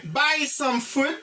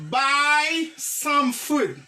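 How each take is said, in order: First: Slow buy some food; slow model phrase. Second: Drawn-out buy some food; very slow model phrase. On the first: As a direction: repeat it slowly. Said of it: "Ti pre, ti pre". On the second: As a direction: stretch every word for the class. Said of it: "Ti pre, ti pre, buy some food". (trè dousman) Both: Shown as a demonstration.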